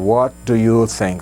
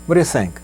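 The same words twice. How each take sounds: First: Each word is said separately and clearly. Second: The words run together fast, partly swallowed. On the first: "essa coisa divididinho, separadinho" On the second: "Mistura as palavras aí... rapidão e meio que engolido também"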